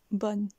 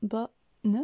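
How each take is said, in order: First: Said in the usual way. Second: BO a little up, NE back down, in two beats; split, up then down. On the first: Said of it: "Répétez-le". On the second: Shown as a demonstration. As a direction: bonne broken into bo and ne. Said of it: "puis redescend".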